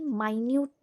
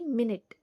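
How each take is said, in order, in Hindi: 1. Stress दूसरे syllable पर पड़ता है। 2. Stress पहले syllable पर पड़ता है। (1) "See how I am pronouncing it" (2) "इसी स्पेलिंग का दूसरा वर्ड"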